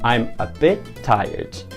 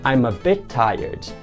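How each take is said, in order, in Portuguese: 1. Os dois sons de t se fundem em um só. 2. Os dois sons de t se fundem em um só.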